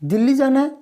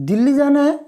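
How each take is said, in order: First: It is said with clear surprise. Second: The same.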